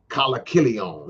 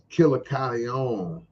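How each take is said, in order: First: The name is said as Kalakilion. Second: The name is said as Killer Corleone. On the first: The speaker calls it wrong. "He said it backwards. You know, he mispronounced it" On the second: The speaker calls it right. "I want him to say that name right"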